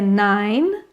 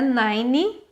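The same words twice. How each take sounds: First: The word ends on the N with no vowel. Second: An extra vowel sound follows the final N. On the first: The speaker calls it right. "é nine" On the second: The speaker calls it wrong. "Você vai tirar esse E, então não é nine"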